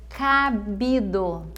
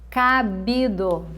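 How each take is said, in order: No difference in how they are said.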